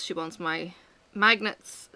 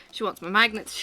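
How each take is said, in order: First: Said in the usual way. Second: Breathy whispered repeat of She wants my magnets. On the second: Real, not acted. Whispered repeat while toddler sleeps.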